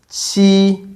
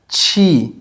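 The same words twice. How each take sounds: First: The first consonant is soft and light. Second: The first consonant is strong and heavy. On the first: The speaker calls it right. "the Chinese sounds are much lighter" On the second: The speaker calls it wrong. "as in cheese"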